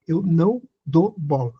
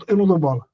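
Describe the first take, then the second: First: "não dou bola" spaced out word by word; emphatic repeat. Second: Said in the usual way. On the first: Real, not acted. Telling Cleonice how they cope with provocation, emphatic and measured.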